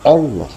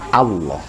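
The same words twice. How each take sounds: First: The first vowel is an o sound. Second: The first vowel is a clear a sound. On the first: The speaker calls it wrong. "jangan o" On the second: The speaker calls it right. "adanya Allah"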